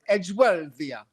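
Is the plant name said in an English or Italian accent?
Italian. It is said with an Italian accent. The speaker calls it right. "it should all be done in a in a sort of Italian accent"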